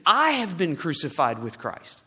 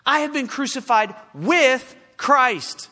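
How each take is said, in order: First: Said in the usual way. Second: "with" punched louder and higher, set apart by pauses; slow, raised repeat, hitting "with" hard; stress on with. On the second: Real, not acted. Preacher repeating Paul's verse to drive it home, stress on "with".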